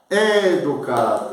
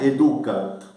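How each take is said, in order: First: The stress is on the first syllable. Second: The stress is on the second syllable. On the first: The speaker calls it right. "Deve colocá-lo antes. ... Educat, esatto, bravissimo" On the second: The speaker calls it wrong. "Non è educat. Tem a brachia. Accento breve sobre o U, non pode colocar a tônica ali"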